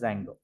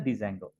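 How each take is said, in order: First: The initial D sound is silent. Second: The initial D sound is pronounced. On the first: The speaker calls it right. "D silent" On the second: The speaker calls it wrong. "we shouldn't pronounce as a Django"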